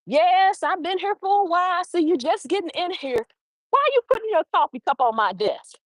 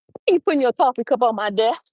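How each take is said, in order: First: Playful. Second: Fast, light and teasing; playful question to John about his coffee cup; laughter and play. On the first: Retold or imitated. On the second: Shown as a demonstration. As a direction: tease him while you ask. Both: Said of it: "There's laughter and play in that sentence".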